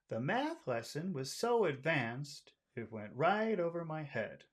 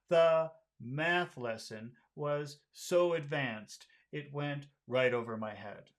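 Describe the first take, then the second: First: The pitch stays high, sounding friendly. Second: The pitch drops low, sounding serious. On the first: "let's try the friendly one" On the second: "if you make it low, it starts to sound serious"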